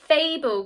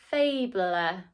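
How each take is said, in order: First: No extra vowel sound is said at the end. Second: An extra vowel sound is said at the end. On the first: The speaker calls it right. "We're not pronouncing the e at the end" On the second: The speaker calls it wrong. "That doesn't sound right to me"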